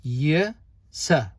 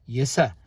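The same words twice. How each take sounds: First: "Yasa" split into two drawn-out syllables, ya, then sa; syllable-by-syllable demo. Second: "Yasa" run together as one short, lower word; syllables joined up. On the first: Teacher showing learners how "Yasa" is pronounced, broken into syllables. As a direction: sound out "Yasa" slowly with a gap between syllables. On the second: Teacher putting the syllables back together, "Yasa" said joined up. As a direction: blend "ya" and "sa" into a quick "Yasa". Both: Shown as a demonstration.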